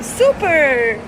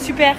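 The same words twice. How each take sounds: First: It is said with an English accent. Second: It is said with a French accent. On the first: This is how the child actually says it. "Avec son petit accent anglais" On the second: This is the word she intends to say. "elle veut dire super"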